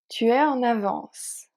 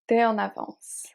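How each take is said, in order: First: Tu is said in full before es. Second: Tu is shortened to t' before es.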